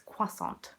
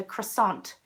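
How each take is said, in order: First: "croissant" as soft KWA-sont; correcting pronunciation. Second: "croissant" as kruh-SAHNT, t sounded; North American pronunciation. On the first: Correcting North American listeners, "croissant" as KWA-sont. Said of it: "It's a croissant". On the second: Teasing North American listeners, "croissant" as kruh-SAHNT. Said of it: "if you're in North America". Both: Shown as a demonstration.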